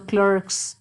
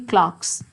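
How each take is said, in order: First: It has an American accent, r pronounced. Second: It has a British accent, no r.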